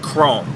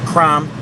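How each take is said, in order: First: The name rhymes with 'home'. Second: The name rhymes with 'from'. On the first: The speaker calls it right. "but it is Chrome" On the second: The speaker calls it wrong. "Some people pronounce it Crom"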